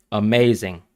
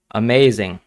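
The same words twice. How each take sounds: The two takes are said the same way.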